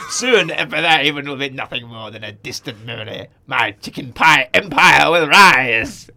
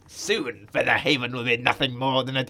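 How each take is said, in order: First: Villain gloating over his pie empire, evil grin; Emperor Palpatine. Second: Lightly evil low voice; a hint of villainy, half-read; villain starting his gloat, mildly sinister; evil grin. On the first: Acted. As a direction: relish the evil plan like a Sith lord. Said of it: "he's Emperor Palpatine". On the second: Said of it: "Evil grin".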